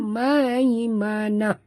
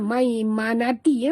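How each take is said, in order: First: The word ends with a breathy 'ah' sound. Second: The word ends with an 'ati' syllable. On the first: The speaker calls it right. "kita wakaf di sini dengan membunyikan ha" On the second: The speaker calls it wrong. "Bukan maimanati"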